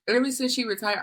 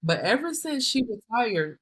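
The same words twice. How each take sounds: First: Laughing. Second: Said in the usual way. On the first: Real, not acted. Employee laughing as she recalls the micromanager retiring, laughing. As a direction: restart with a laugh, a bit higher. Restarts line, laughing second time.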